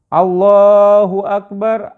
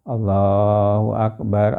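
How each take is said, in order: First: It is said loudly and resoundingly. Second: It is said quietly and without force. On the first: The speaker shows dignity and joy. The speaker calls it right. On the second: The speaker seems sad and lacking dignity. The speaker calls it wrong. "Itu tidak nyaring, itu tidak keras"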